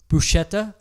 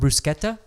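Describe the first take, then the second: First: It is pronounced in a plain English way. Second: It is pronounced in an Italian way.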